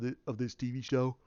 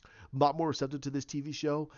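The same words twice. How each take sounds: First: Misspoken "of this T V show", said offhand; slip of the tongue. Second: "lot" leaned on in the corrected phrase; careful correction. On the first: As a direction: trip over the word "of" before catching it. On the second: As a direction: restate it deliberately, pressing "lot". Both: Real, not acted. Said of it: "Ooh, I'm sorry".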